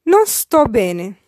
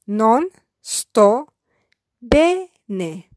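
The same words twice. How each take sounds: First: Non sto bene said slowly, every word clear; slow careful model. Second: Non sto, a pause, then bene apart; syllabified. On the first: Teacher slowly modelling Non sto bene for learners. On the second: Teacher splitting Non sto bene for beginners. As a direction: break Non sto bene into two chunks. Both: Shown as a demonstration. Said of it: "I will syllabify each sentence".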